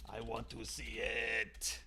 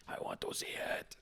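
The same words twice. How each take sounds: First: Slow, drawn-out low creepy voice; creep's tagline. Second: Soft, creepy whisper; creep's whispered tagline. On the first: Trying out his tagline, slow and creepy. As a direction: stretch it out, low and soft, as a mock creep. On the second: Trying out his tagline again, in a creepy whisper. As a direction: whisper it all as a mock creep. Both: Acted. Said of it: "maybe his tagline should be".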